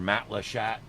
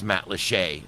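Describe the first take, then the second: First: The name is said in another outsider's pronunciation. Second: The name is said in the local pronunciation. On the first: This is how visitors from the north say it. The speaker calls it wrong. "and it's not" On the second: This is how the locals say it. The speaker calls it right. "It's Matlacha"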